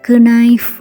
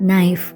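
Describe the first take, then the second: First: The word starts with an audible k sound. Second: The word starts with an n sound, no k. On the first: This is the old pronunciation. "நைஃபை கினைஃப் அப்படின்னு சொல்லுவாங்க" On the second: This is the modern pronunciation. "கே லெட்டரோட சவுண்டை pronounce பண்ணுறதில்ல"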